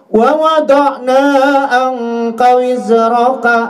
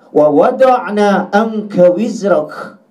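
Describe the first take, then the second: First: The last word ends with a vowel sound. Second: The last word ends on a bare consonant. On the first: The verse is read in its written form. "itu kalimat aslinya" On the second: The reader stops at the end of the verse. "wajib kita matikan harokatnya atau barisnya"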